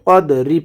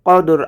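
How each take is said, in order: First: The word ends with a short final i vowel. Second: The word ends on a consonant, no final vowel. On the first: The reciter continues without stopping. "আর যদি ওয়াকফ না করি কদরি পড়ব" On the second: The reciter stops at this word. "এখানে যদি ওয়াকফ করি তাহলে হবে কদর"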